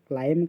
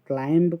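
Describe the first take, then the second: First: The word ends on the m sound. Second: A b sound is heard at the end. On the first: The speaker calls it right. "क्लाइंब कहूँ" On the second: The speaker calls it wrong. "क्लाइंब कहूनु"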